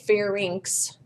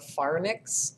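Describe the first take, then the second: First: The word ends with an 'inks' sound. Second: The word ends with a 'nicks' sound. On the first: The speaker calls it right. "It's inx, like the lynx cat" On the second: The speaker calls it wrong. "Sometimes I hear people mispronounce it and call it the pharynx. It's not that. It's not nix"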